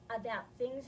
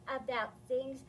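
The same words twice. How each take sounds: The two takes are said the same way.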